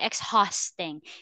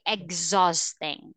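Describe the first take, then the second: First: The h sound is pronounced in the word. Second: The h sound is silent in the word. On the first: The speaker calls it wrong. "You don't say exhausting" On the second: The speaker calls it right. "it's silent H"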